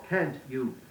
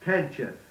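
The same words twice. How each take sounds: First: The words are said carefully and distinctly. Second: The words are slurred together carelessly. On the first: The speaker calls it right. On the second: The speaker calls it wrong.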